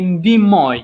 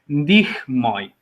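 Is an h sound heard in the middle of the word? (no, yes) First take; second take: no; yes. First: The middle h sound is left out. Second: The middle h sound is clearly pronounced. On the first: "we say ndimoi" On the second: "instead of ndihmoi"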